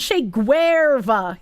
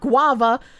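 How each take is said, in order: First: The name is said with a clear R sound. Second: The name is said with no R sound. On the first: The speaker calls it right. "That's like the only word I actually pronounce the R in" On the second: The speaker calls it wrong. "You guys are forgetting the R"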